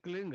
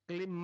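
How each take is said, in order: First: The word ends with an ng sound. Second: The word ends with an m sound. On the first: The speaker calls it right. "क्लिंग है, अंग का उच्चारण होना पड़ेगा" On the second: The speaker calls it wrong. "क्लिम मैं नहीं, संस्कृत में क्लिम होता है नहीं"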